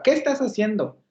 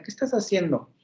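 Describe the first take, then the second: First: "¿Qué estás haciendo?" as an exclamation, stress on "Qué", slightly higher; exclamation intonation. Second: "¿Qué estás haciendo?" asked as a real question, falling on "estás"; question intonation. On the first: Teacher contrasts the question with an exclaimed version. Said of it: "la expresión admirativa". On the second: Teacher shows the class a question tune, asking it. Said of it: "les hago la pregunta". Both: Shown as a demonstration.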